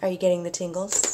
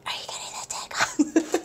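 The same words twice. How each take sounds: First: Said in the usual way. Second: Breathy ASMR whisper. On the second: Pretend. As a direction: whisper it close to the mic. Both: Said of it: "Ooh, A S M R".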